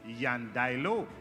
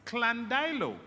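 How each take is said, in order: First: It begins with a Y sound. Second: It begins with a K-L sound. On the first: It follows a Spanish origin. "If the origin of that word is Spanish, then the correct pronunciation is Yandailo" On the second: It follows a Welsh origin. "If the origin of that word comes from our Welsh heritage, then it is pronounced Clandilo"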